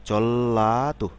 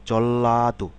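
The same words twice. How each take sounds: The two takes are said the same way.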